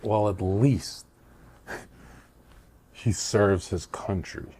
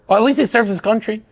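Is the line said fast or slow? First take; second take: slow; fast. First: The line is said slowly with deliberate tone. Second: The line is said quickly and hurriedly. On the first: The punchline lands firmly and carries meaning. The speaker calls it right. "But the tone manipulation" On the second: The speaker is nervous and defers to the listener. The speaker calls it wrong. "If I said it fast, it comes off as high anxiety"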